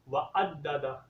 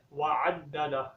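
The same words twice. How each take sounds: First: وعددہ with a plain glottal hamza, no ain sound; teacher demonstrating the mistake, وعددہ said with hamza; wrong pronunciation. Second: وعددہ with a clear throaty ain at the start; teacher models وعددہ with a proper ain; correct ain sound. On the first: Teacher shows students the common mistake, hamza instead of ain. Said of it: "یہ غلطی ہے". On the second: Teacher shows students the correct reading with ain. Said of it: "عین کے sound کے ساتھ پڑھنا ہے". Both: Shown as a demonstration.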